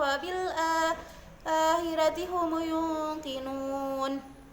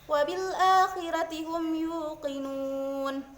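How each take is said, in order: First: The word is said as humu, with added u. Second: The word is said as hum, ending in m. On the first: "humu yungkinun" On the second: "seperti bacaan yang biasa"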